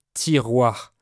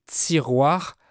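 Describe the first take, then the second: First: Said in the usual way. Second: TIROIR opening with a buzzy ts; Quebec affricated T. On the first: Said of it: "pour dire tiroir". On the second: Retold or imitated. Teacher imitating the singer's Quebec accent, TIROIR as tsiroir. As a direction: say TIROIR as tsiroir, sibilant after the t. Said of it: "comme s'il y avait un Z après le T".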